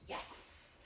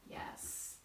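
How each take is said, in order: First: It is said in a raised, excited tone. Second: It is said in a calm, neutral tone.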